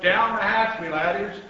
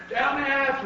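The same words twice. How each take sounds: First: Loud, higher opening, hearty; pirate captain's yell. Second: High-pitched echoing cheer; crew's shout. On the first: Captain to crew at the table, hearty yell. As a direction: yell a toast to your crew. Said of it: "pounded his fist on the table and yelled". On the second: Crew answering captain at dinner, high shout. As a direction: shout back higher, as the whole crew. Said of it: "we all shouted". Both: A narrator's reading.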